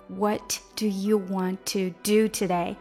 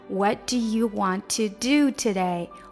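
The two takes are said the same way.

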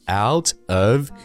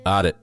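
First: Both words are said fully and separately. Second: The two words merge into one reduced word. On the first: This is the formal form. "正式的写法是I'm out of here" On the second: This is the casual spoken form. "把out 和of 这两个词缩成一个词"

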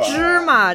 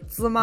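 First: The second syllable is light and unstressed. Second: The second syllable has a full high level tone.

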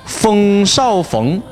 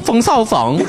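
First: It is said in standard Mandarin pronunciation. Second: It is said with a Henan dialect accent. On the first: "冯绍峰倒过来就是风少冯" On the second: "河南的同学们，我讲的标准吗？"

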